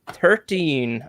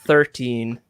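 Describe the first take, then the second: First: It is said in a put-on Irish accent. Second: It is said in the speaker's normal accent. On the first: "I said that in my best Irish accent" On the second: "like I should say it"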